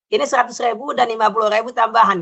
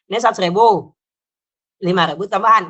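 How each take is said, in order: First: It runs straight on with no pause. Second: There is a pause after 'seratus ribu'. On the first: The speaker calls it right. "nggak pakai jeda gitu" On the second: The speaker calls it wrong. "Nggak begitu"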